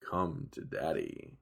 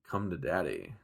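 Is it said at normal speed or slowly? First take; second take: slowly; normal speed. First: It is said more slowly, drawn out. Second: It is said at normal speed.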